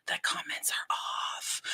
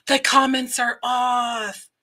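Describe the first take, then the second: First: Hushed whisper, slow; slow stage whisper of disbelief. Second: Slow, loud exclaim; outraged slow shout. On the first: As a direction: whisper it like a shocking secret. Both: Pretend. Whispered then shouted discovery.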